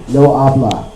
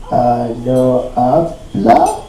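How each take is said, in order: First: Said in the usual way. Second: Low, soft, very slow, rising question; unsure parroting. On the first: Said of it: "just repeat after me". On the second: Acted. Worker parroting a taught phrase to his boss, haltingly. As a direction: try out a phrase you barely know.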